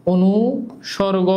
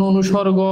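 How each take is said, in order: First: "অনুসর্গ" drawn out in two parts, pausing after অনু; slow "অনুসর্গ" with a gap mid-word, for note-takers; slow dictation. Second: Said in the usual way. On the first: Shown as a demonstration. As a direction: dictate "অনুসর্গ" slowly, breaking it as অনু, সর্গ. Teacher repeats word slowly for dictation.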